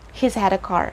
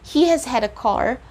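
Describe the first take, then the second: First: The word has is contracted to he's. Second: The word has is said in full. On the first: "they might just say he's had a car" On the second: "instead of saying he has had a car"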